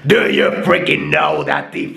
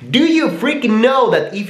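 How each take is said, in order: First: A harsh, gritty metal-style voice. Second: A high, tense, squeaky comic voice. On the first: "let's go for something like a metal voice" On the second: "Let's go for a little comedical guy"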